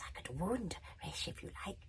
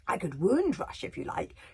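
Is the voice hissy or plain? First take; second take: hissy; plain. First: It is said in a hissy voice. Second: It is said in a plain voice.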